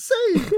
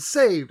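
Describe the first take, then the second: First: Very high, loud little-dog "Saved!"; squeaky dog voice. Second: Quick proud "Saved!", a little louder; triumphant exclaim. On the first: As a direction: pitch it way up like a tiny dog. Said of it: "Snowy jumps out the window and says". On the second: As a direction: announce it like a hero who made it out. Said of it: "Tintin jumps out the window and says". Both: Retold or imitated.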